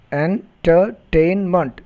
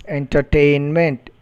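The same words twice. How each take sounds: First: "entertainment" slowly split en, ter, tain, ment; syllable by syllable. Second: Said in the usual way. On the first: Shown as a demonstration. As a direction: pause between all four syllables of "entertainment". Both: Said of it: "polysyllabic words".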